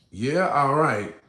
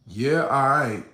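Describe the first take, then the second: First: Very slow "Yeah, all right"; slow cool nod. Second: Cool nod demo. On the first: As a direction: drag it out, unbothered. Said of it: "is known as". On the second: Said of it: "it's not bitching up". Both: Shown as a demonstration.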